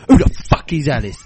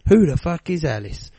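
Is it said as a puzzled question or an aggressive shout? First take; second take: aggressive shout; puzzled question. First: It sounds like an aggressive, shouted threat. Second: It sounds like a puzzled, genuine question.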